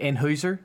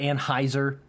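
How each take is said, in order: First: The name is said the German way, with 'oi'. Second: The name is said the usual American way. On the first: The speaker calls it right. "I was trying to pronounce it like German" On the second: The speaker calls it wrong. "People say Anheuser"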